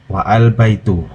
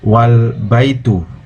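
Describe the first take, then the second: First: A separate a vowel is said between wa and l. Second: Wa runs straight into l with no extra vowel. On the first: The speaker calls it wrong. "not wa al baitu" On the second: The speaker calls it right. "the phrase is pronounced wal baitu"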